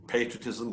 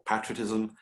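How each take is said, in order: First: "patriotism" starting PAY-; first A in "patriotism" as in "pay"; long-A pronunciation. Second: "patriotism" starting PAT-; first A in "patriotism" as in "pat"; short-A pronunciation. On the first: Doubts how to pronounce it. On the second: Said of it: "matter how you pronounce it". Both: Shown as a demonstration.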